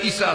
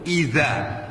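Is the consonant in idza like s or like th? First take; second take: s; th. First: The consonant is a plain hissing s. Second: The consonant is a soft th-like sound. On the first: The speaker calls it wrong. "izanya sudah salah diganti dengan sin" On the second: The speaker calls it right. "pakai zal dulu, lidahnya ditekan ke atas"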